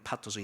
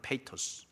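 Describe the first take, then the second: First: The first vowel sounds like 'pa'. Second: The first vowel sounds like 'pay'. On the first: This is the original-language form. "원어의 의미는 파토스" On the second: This is the English form. "영어 표현은 페이토스"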